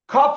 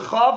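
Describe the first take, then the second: First: The first consonant has the hard pronunciation. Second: The first consonant has the soft pronunciation. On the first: "Kaf is the is the hard" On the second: "Chaf is the soft"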